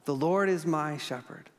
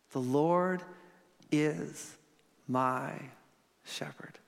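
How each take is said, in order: First: Said in the usual way. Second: The Lord is my shepherd, each word apart, dropping to a whisper on shepherd; slow it word by word and breathe shepherd; word by word, fading to whisper. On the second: Shown as a demonstration. Preacher walking the congregation through each word, softening to a whisper. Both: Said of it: "He'd preach like this".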